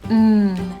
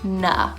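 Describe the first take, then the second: First: The consonant is held with no vowel after it. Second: The consonant is followed by an extra uh vowel. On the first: The speaker calls it right. "N is mm" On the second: The speaker calls it wrong. "not na"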